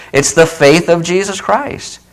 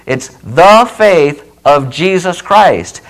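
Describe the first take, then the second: First: Said in the usual way. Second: "the faith of Jesus Christ", slow and deliberate; slow emphasis. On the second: Shown as a demonstration. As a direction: lay out each word of "It's the faith of Jesus Christ" slowly. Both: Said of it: "notice that phrase".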